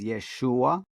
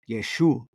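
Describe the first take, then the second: First: The name ends with an 'a' sound. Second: The name ends without an 'a' sound. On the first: "the true name they say is Yeshua" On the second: "almost like taking the A off"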